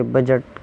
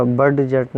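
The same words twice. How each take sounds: First: "بجٹ" with no D before the J; silent D. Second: "بڈ جٹ" with the D sounded before the J; wrong pronunciation. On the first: Teacher showing the correct word, said with silent D. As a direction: glide straight into J in "بجٹ", dropping the D. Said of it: "بجٹ کی آواز نکالی ہے". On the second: Teacher showing learners what not to say, mispronounced with D sounded. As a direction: break "بڈ جٹ" in two, sounding the silent D. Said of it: "نہیں بلکہ بجٹ کی آواز". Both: Shown as a demonstration.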